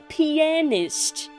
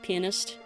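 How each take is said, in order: First: The middle 'a' is stressed and drawn out. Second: The word is said quickly, the 'a' squeezed. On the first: The speaker calls it right. "That's why I tried emphasizing the A" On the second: The speaker calls it wrong. "when you say it too fast"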